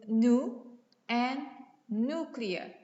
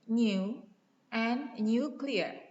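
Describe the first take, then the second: First: American style, without a y-glide. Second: Older New Zealand style, with a y-glide.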